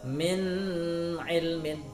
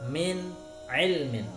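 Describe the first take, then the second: First: The n is held with a nasal hum. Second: The n is pronounced crisply and distinctly. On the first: The speaker calls it wrong. "dibaca dengan dengung seperti" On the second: The speaker calls it right. "harus jelas"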